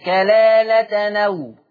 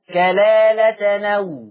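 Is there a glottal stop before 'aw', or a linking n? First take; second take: linking n; linking n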